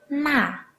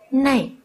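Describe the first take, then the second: First: The word ends in a plain 'a' vowel. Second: The word ends in an 'ei' glide. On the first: This is the standard citation form. "Hãy nhắc lại từ kia đó" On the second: This is the casual spoken form. "Từ này trong khẩu ngữ thường được đọc thành này"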